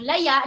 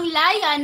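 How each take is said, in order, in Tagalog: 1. Binibigkas ang salita sa maragsa na diin. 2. Binibigkas ang salita sa malumi na diin. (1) "na maragsa" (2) "na malumi"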